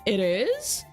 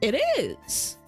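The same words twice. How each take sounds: First: It is said as a question, rising. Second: It is said as a statement, falling.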